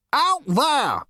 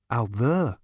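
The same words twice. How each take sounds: First: Very high, loud OUT THERE, falling at the end; high-pitched, emphatic exasperation on "Out there"; exasperated shout. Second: Said in the usual way. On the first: A narrator's reading. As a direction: snap "Out there" loudly in frustration. Zarniwoop exasperated, points at door.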